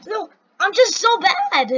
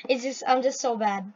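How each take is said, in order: First: Loud, high self-reproach; exasperated outburst. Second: Said in the usual way. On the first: Real, not acted. Player blaming own bad skills, exasperated outburst. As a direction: burst out in frustration at yourself.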